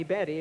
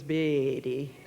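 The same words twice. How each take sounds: First: Said in the usual way. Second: Betty dragged out slowly in a Georgia drawl; Southern drawn-out Betty. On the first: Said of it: "it was Betty". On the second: Shown as a demonstration. Speaker showing how Southerners drag out Betty, Georgia drawl. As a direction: stretch Betty long the Southern way. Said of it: "when it came to calling me Betty".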